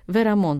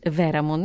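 First: The stress falls on the last syllable. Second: The stress falls before the last syllable. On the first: The speaker calls it right. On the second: The speaker calls it wrong.

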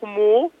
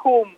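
First: It ends with an added 'oo' vowel. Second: It has an 'oo' vowel in the middle. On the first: "όχι χμού" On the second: "ούτε χουμ"

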